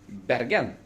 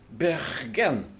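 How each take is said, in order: First: It is said with an East Norwegian accent. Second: It is said with a West Norwegian accent. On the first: "in East Norway or Sweden they say" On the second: "Western region from Bergen will say"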